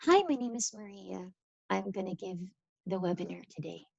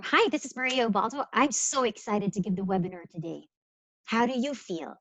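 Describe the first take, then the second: First: Bored, subdued phone voice; unenthusiastic demo. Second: Lively, upbeat introduction; energetic, engaged phone voice; enthusiastic demo. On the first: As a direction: introduce yourself with no energy, trailing down softly. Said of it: "if I was to talk to you like". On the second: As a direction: greet them brightly, eager to present. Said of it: "That's very different from". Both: Shown as a demonstration.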